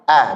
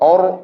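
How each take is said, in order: First: The vowel is a plain, ordinary a sound. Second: The vowel is rounded and darkened toward o. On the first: The speaker calls it right. "a biasa" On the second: The speaker calls it wrong. "jangan or or o, salah"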